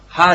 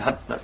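First: The word ends on an open vowel. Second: The word ends with a short cut-off stop. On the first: The speaker calls it wrong. "ハじゃなくて" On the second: The speaker calls it right. "ハッ、ね、これ難しいです"

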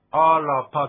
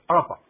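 First: The middle ra is pronounced fully and clearly. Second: The middle r is swallowed, not fully pronounced. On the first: The speaker calls it wrong. "アラパじゃなくて" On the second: The speaker calls it right. "R ですから飲み込む感じです"

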